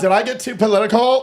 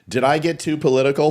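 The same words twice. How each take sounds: First: It is said in a Valley Girl accent. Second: It is said in a plain, ordinary accent. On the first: "Is that better?" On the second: "You didn't say it with a Valley Girl accent"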